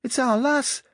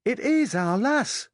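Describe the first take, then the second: First: Put-on high, loud "It's our lass" in a child's Yorkshire voice; insistent Yorkshire child calling out; Yorkshire boy's shout. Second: Put-on high child's Yorkshire voice with a long, stressed "is"; little Yorkshire lad insisting, "is" drawn out; insistent Yorkshire boy. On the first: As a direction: yell "It's our lass" as an eight-year-old Yorkshire tyke, stretching "lass". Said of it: "sounding like some vulgar tyke". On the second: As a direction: insist "It is our lass" slowly, leaning hard on "is". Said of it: "it's common". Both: A narrator's reading.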